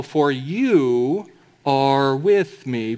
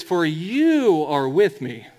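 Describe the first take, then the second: First: "with" leaned on and drawn out, very slow; slow right down and lean into "with"; stress on with. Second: "you" hit firmly, the rest falling away; stress on you. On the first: Preacher reading the psalm aloud to the church, slow with "with" stressed. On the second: Preacher rereading the verse to show the pronoun change, stressing "you". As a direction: point the word "you" out slowly. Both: Shown as a demonstration. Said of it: "Do you notice the change in pronouns?".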